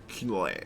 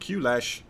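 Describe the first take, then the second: First: The name is said as one syllable, Clash. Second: The name is said as two syllables, Q-Lash. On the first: "Pretty sure it's just Clash" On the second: "A Q-Lash"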